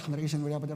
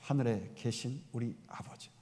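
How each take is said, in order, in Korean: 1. 빠르게, 아무 생각 없이 후다닥 읊어요. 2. 천천히, 한 단어 한 단어 또박또박 말해요. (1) "그냥 아무 생각 없이 ... 막 그냥 하는 거예요" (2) "또박또박"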